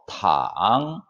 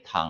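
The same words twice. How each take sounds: First: The pitch dips very low, then rises. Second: The pitch stays high and level. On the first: It means to lie down. "삼성으로 탕 하게 되면은" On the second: It means soup. "일성으로 탕이라고 하면은"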